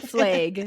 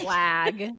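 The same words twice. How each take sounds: First: It is said with a Montana vowel. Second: It is said with a standard vowel. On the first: This is how people from Montana say it. "We say" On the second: This is how people elsewhere say it. "We don't say"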